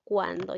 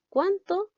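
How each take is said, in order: First: "Cuándo" plainly, d clearly sounded; corrected word. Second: "¿Cuánto?" said with a t, kwan-to, sharply raised and louder; "¿Cuánto?" asked high, t clearly sounded; wrong word stressed. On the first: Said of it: "ya la palabra debe ser cuándo". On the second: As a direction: call out "¿Cuánto?" with a hard t as the mistake. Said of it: "Aquí debe decir cuándo". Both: Shown as a demonstration.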